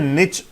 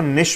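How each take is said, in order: First: The word ends with a 'ch' sound. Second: The word ends with a 'sh' sound. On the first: "इस word का नाम है निच" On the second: "या इसको निश भी बोला जाता है"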